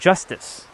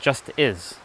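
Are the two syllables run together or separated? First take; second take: joined; separated. First: The syllables run together quickly with no break. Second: The two words are said separately, more slowly. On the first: It sounds like the single word justice. "if you say it fast enough, it'll sound like justice" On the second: It is heard as two words. "I said just is"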